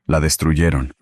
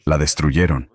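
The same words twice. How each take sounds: The two takes are said the same way.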